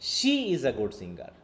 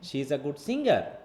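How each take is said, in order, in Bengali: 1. শব্দ she-এ জোর আছে। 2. শব্দ singer-এ জোর আছে। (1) "অন্য কেউ না, শুধু সে গুড সিঙ্গার" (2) "তখন আমার সিঙ্গারের উপর ফোর্স"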